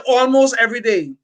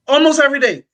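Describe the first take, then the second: First: Said in the usual way. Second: Almost every day said higher and louder, punched; emphatic repeat. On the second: Real, not acted. To the listeners, insisting he heard it daily, emphatic.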